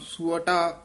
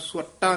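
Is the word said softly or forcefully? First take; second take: softly; forcefully. First: The word is said softly and lightly. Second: The word is said forcefully and hard. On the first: The speaker calls it right. "ਪੋਲਾ ਹੀ ਬੋਲਣਾ" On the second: The speaker calls it wrong. "ਸੁਵਟਾ ਨਹੀਂ ਕਹਿਣਾ"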